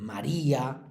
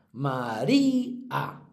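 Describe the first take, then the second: First: Said in the usual way. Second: "María" slowly split as ma-RÍ-a; fuerza en la I. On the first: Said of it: "todas las que acaban en ía". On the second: Shown as a demonstration. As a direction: stretch "María" on a long "í", then a separate "a". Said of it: "tienen la fuerza en la penúltima". ("María" lento, alargando con fuerza la "í")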